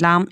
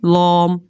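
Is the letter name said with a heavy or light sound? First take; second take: light; heavy. First: The vowel is light and plain, like 'laam'. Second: The vowel is thick and heavy, like 'lom'. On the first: The speaker calls it right. "Simple normal जैसे ज़बान में हम लाम इस्तेमाल करते हैं" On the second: The speaker calls it wrong. "लाम को मोटा करके नहीं पढ़ना, ठीक है, लॉम ऐसे नहीं पढ़ना"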